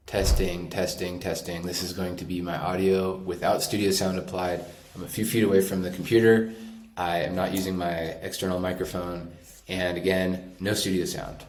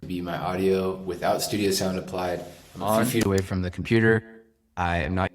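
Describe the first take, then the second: First: Echoey laptop microphone sound; recorded a few feet from the laptop mic. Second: Cleaned-up studio sound playback; processed, noise-removed voice. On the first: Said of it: "recording with my laptop's built-in microphone and no studio sound applied". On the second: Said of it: "let's listen to it". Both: Shown as a demonstration.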